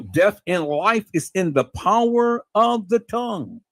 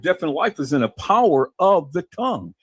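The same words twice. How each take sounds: First: Slow, drawn-out proverb with weight on each phrase; slow emphatic repeat. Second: Said in the usual way. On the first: Real, not acted. Preacher repeats Proverbs to listeners, slowly and emphatically. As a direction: stretch it out for emphasis.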